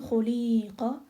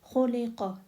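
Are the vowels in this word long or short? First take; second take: long; short. First: The vowels are drawn out long. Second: The vowels are all kept short. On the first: The speaker calls it wrong. "it's not khuliqa" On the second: The speaker calls it right. "All these sounds are short"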